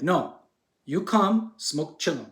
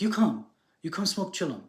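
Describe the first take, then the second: First: Insistent sage. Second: Higher-pitched retold sage waving someone over; lightly put-on voice of a wise sage inviting; inviting Indian sage. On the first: Retold or imitated. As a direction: play the sage firmly repeating his invitation, word by word. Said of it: "And then he's like". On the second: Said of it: "the guy waves to him".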